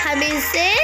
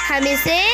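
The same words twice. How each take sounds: Both takes have the same delivery.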